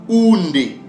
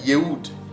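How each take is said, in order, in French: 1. Le nom commence par un son 'oo'. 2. Le nom commence par un son 'y'. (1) "La bonne prononciation ... nos pères le prononçaient Oundé" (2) "en yiddish, il les prononce Yehoud ... Mais ce n'est pas Yehoud"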